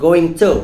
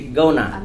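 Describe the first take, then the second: First: Both words are said fully and separately. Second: The words are blended into one reduced word. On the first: "Actually, going to" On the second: "American pronounce it to be gonna"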